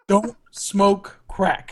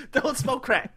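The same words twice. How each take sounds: First: Very slow, drawn-out warning; slow PSA line. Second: High, quicker repeat of the warning; high echo. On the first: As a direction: spell it out slowly like a PSA. Continues mock PSA. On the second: Echoes PSA line. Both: Pretend.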